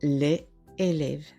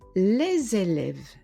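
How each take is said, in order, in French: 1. Aucun son z ne lie les à élèves. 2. Un son z lie les à élèves. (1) "et pas" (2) "il faut faire la liaison. On dira"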